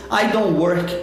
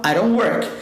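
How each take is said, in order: First: "don't work" with a plain stopped D, no R tap; hard D in "don't". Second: "don't work" linked, D softened to an R tap; flapped D in "don't work". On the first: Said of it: "voltar com o som do D". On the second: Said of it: "continua com I don't". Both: Shown as a demonstration.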